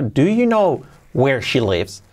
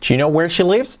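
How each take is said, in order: First: It is said slowly. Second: It is said fast, with words linked.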